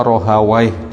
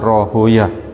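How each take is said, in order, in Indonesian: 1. Nama itu berakhir dengan bunyi 'waih'. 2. Nama itu berakhir dengan bunyi 'yah'. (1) "Ada yang baca Rohawaih" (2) "dibaca Rohoyah"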